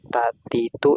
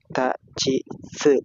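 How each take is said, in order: First: The second syllable sounds like plain ti. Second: The second syllable sounds like chi. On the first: The speaker calls it wrong. "Bukan tak titu" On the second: The speaker calls it right. "tapi tak ci se"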